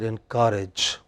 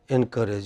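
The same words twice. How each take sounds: First: The stress is on the second syllable. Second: The stress is on the first syllable. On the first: The speaker calls it right. "You should have said encourage. ... Whenever you attach en, then it is the next word" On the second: The speaker calls it wrong. "You said encourage. ... It is not en itself"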